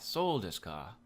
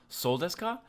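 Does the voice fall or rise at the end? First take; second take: fall; rise. First: The pitch falls toward the end. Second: The pitch rises toward the end. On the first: The speaker is just acknowledging what was heard. The speaker calls it right. "the slight lowering of the intonation as you get towards the end" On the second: It sounds like a real question expecting a response. The speaker calls it wrong. "the normal rising intonation that you probably hear with a question"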